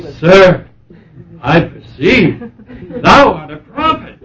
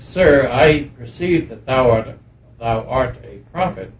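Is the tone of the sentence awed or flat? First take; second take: awed; flat. First: It is said with awe and emotion. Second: It is said flatly, without emotion. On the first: The speaker calls it right. "She would say it with awe" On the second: The speaker calls it wrong. "not just that way that I'm saying"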